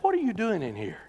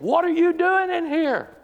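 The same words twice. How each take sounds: First: It is said at a normal, quieter volume. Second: It is said with a raised, loud voice.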